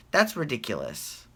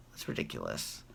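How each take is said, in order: First: Said in the usual way. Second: Low whispered repeat of that's ridiculous; whispered aside. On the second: Real, not acted. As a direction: breathe it again under your breath.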